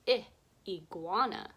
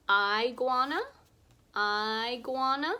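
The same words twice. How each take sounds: First: "I, iguana." with short i, ɪ; short I sound. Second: "Iguana" with long i, aɪ, loud rising; wrong long I. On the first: Teacher shows kids the right vowel. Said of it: "Let's flip the vowel sound". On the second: Teacher shows kids the wrong vowel. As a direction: try "iguana" with eye sound. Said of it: "That doesn't sound right". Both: Shown as a demonstration.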